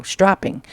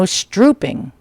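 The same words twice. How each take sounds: First: Said in the usual way. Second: "strooping" with an oo vowel; misread word. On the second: Real, not acted. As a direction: misread it as "strooping", rhyming with drooping. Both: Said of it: "oh, stropping".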